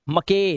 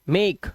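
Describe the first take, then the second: First: A vowel is sounded after the final consonant. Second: The word ends on the consonant, no vowel. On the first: The speaker calls it wrong. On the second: The speaker calls it right.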